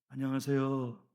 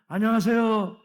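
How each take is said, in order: First: The greeting is said at normal, softer volume. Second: The greeting is said louder.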